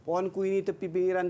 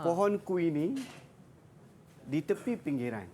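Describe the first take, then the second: First: The line is read straight through without a pause. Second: There is a brief pause in the middle. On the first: The speaker calls it wrong. "kadang-kadang kita tak biasa dengar pantun tau. Kita baca macam ni" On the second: The speaker calls it right. "kena berhenti di tengah-tengah ni. Ha, dia kena berhenti seketika"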